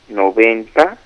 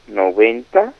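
No difference in how they are said.

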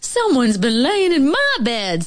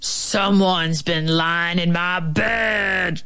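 First: It is said in a middle-pitched voice. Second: It is growled in a big, deep voice.

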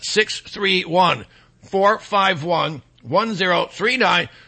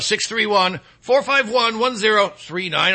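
First: The number is said slowly. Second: The number is said at normal speed.

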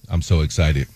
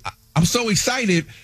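First: It is said flatly, without emotion. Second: It is said with excited emotion.

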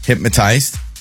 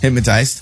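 First: It is said slowly. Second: It is said at normal speed.

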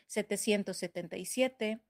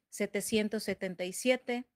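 Both takes have the same delivery.

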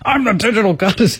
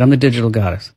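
First: It is said forcefully, with angry conviction. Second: It is said tentatively, without conviction.

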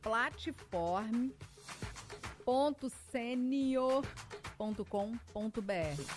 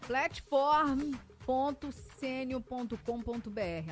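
First: It is said slowly, with pauses. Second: It is said at normal speed.

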